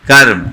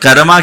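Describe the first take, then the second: First: The word ends on the 'm' consonant. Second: The word ends with a long 'aa' vowel. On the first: The speaker calls it right. "तो कर्म बोलो ना" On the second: The speaker calls it wrong. "कर्मा क्यों बोलते हैं?"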